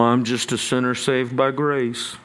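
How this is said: It is said in a resigned, defeated tone. The speaker has no choice but to keep sinning. The speaker calls it wrong. "a second way to say that that's defeatist"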